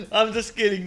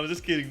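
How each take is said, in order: First: Loud, higher, laughing apology. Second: Said in the usual way. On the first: Real, not acted. Streamer laughing while taking back the insult. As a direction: giggle the take-back out.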